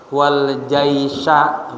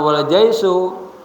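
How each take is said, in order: First: The last word ends with an 'a' vowel. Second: The last word ends with an 'u' vowel. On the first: The commander came together with the army. The speaker calls it right. "wal jaisa bacanya" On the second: The army is simply joined to the subject. The speaker calls it wrong. "maka bacanya jangan wal jaisu"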